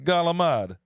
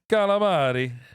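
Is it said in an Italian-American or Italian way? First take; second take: Italian-American; Italian. First: It is clipped, Staten Island Italian-American style. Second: It is full, with the final vowel, Italian style.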